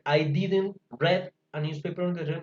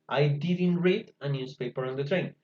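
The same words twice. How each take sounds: First: The verb has its past-tense pronunciation. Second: The verb has its present-tense pronunciation. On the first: The speaker calls it wrong. "me queda mal, porque me queda el auxiliar en pasado y el verbo también" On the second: The speaker calls it right. "No se les olvide ese cambio de pronunciación"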